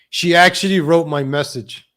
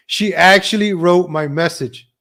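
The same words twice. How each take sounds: The two takes are said the same way.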